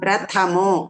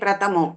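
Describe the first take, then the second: First: The 'th' is said with a strong breath. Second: The 'th' is said without a breath. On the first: The speaker calls it right. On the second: The speaker calls it wrong.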